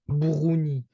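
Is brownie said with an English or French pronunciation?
French. It is said with a French pronunciation. This is how people in France say it. The speaker calls it right. "in French we call them brownie"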